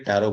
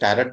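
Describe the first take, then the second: First: The word ends in a vowel, no T sound. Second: The word ends with a pronounced T sound. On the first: The speaker calls it right. "टैरो बोला जाता है, इसमें टी silent रहता है" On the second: The speaker calls it wrong. "इसको टैरट नहीं बोलते"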